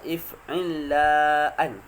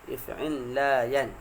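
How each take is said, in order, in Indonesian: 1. Hamzah ada sebelum vokal terakhir. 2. Bunyi y ada sebelum vokal terakhir. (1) "maka alif itu yang ditambah" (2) "asalnya ya"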